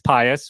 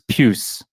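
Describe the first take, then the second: First: The name is said as two syllables. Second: The name is said as one syllable. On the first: The speaker calls it wrong. "you read it and it's pious" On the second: The speaker calls it right. "I'm pretty sure it's Puce"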